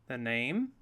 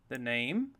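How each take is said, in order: The two takes are said the same way.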